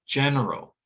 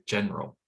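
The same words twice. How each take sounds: First: "general" with all three syllables, GEN-er-al; full form, first-syllable stress. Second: "general" cut to GEN-ral; second syllable dropped. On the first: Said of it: "Stress on the first syllable". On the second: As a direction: drop the middle vowel of "general". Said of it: "reduced to the point where it disappears". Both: Shown as a demonstration.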